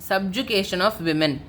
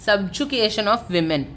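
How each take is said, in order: No difference in how they are said.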